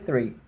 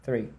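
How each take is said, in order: Both takes have the same delivery.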